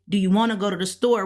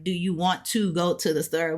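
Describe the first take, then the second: First: Quick question with "wanna" run together; fast everyday English, "wanna go to the" blended; casual spoken form. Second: "want to" as two clear words; careful unblended "want to go to"; correct written form. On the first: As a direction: rattle off "wanna" as one word. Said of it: "even though we say". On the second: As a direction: say it as written, each word of "want to" fully sounded. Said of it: "We write it correctly". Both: Shown as a demonstration.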